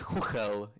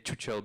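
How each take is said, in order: First: It is said with native Czech sounds. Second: It is said with anglicized, non-Czech sounds. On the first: "It's pronounced Chuchel in Czech" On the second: "we're happy when people say Chuchel because it sounds much funnier"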